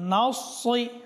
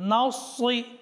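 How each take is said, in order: Both takes have the same delivery.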